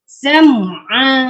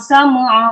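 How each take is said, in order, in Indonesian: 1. Bunyi m dan ain terdengar terpisah. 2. Bunyi m dan ain menyatu. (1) "Jelaskan mim dengan ain tu nah" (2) "Jangan sam'a, sam'a, ma dia kolak-kolak sekali, tak boleh"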